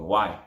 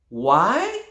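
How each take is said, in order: First: The pitch falls on the word. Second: The pitch rises on the word. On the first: It does not invite an answer. The speaker calls it wrong. "Downward tone" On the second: It invites people to answer. The speaker calls it right. "an upward tone"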